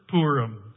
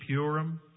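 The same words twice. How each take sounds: First: No 'y' glide follows the P sound. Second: A 'y' glide follows the P sound.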